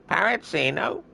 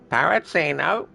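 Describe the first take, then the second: First: Very high squawking parrot. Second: High squawky parrot. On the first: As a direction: screech it like a parrot. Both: Retold or imitated. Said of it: "Doing an impression of a parrot".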